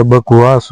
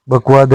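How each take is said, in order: First: बकवास ending in स; correct form. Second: बकवाद ending in द; wrong form. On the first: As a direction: say बकवास with a final स. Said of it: "बकवास होता है". (सही उच्चारण बकवास, अंत में स) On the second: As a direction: say बकवाद with a final द. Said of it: "बकवाद नहीं होता". (गलत उच्चारण बकवाद, अंत में द) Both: Shown as a demonstration.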